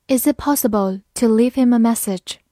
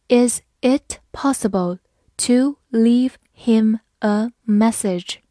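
First: Said in the usual way. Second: Slow question, each word set apart; slow reading. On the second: Shown as a demonstration. Teacher modelling a question for learners, slow word-by-word reading. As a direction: read it word by word, slowly. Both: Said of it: "好，慢慢来读".

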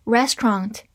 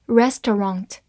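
First: "restaurant" in two syllables with an open American "ah" in the ending; American "restaurant", RES-trahnt; American pronunciation. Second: "restaurant" in three syllables, res-tuh-rahnt; alternative pronunciation. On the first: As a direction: open the mouth wider on the last vowel of "restaurant". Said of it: "美式发音A N T的口型比较大". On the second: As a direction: keep the middle vowel in "restaurant". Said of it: "或者读作". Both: Shown as a demonstration.

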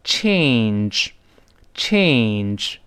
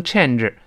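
First: "change" drawn out slowly on a long ay; correct diphthong. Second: "change" with a short e and an extra syllable; wrong vowel demo. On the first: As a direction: stretch the ay in "change". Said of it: "要读成". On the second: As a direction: mispronounce "change" like chen-zhe. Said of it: "改变不能读成change". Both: Shown as a demonstration.

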